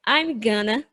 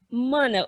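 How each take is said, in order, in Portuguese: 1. As palavras são contraídas e fundidas em gonna. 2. A frase é espremida em uma palavra curta. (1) "Eles vão falar ou I'm gonna" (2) "Simplesmente mana"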